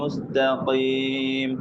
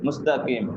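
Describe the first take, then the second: First: The consonant before 'eem' is a deep q. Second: The consonant before 'eem' is a plain k. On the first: The speaker calls it right. "ഓതനായ" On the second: The speaker calls it wrong. "ഖീൽ എടുത്തിട്ട് കീ ആക്കിടർ ... അതും തപ്പായ"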